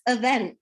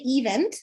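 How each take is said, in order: First: The first vowel is a weak schwa sound. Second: The first vowel is a full 'ee' sound. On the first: The speaker calls it right. "It's event. ... it's a schwa" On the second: The speaker calls it wrong. "People say event, and it's wrong"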